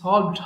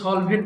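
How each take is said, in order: First: The ending is a plain 'd' sound. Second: The ending has an extra vowel and 't'. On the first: The speaker calls it right. "এটা কিন্তু সলভড হবে" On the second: The speaker calls it wrong. "এটা অনেকে ভুল করে সলভেট বলে ফেলে"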